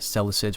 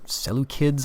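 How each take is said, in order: First: The C is pronounced as a soft S sound. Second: The C is pronounced as a hard K sound. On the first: The speaker calls it wrong. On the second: The speaker calls it right.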